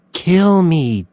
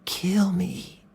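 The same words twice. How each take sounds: First: Higher, louder dare on kill; taunting challenge; goading taunt. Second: "Kill me." breathed in a voiceless whisper; soft whispered goading; whispered taunt. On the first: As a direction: dare him to do it. Doe goads Mills. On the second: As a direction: whisper the dare close to him. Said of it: "said Doe softly". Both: A narrator's reading.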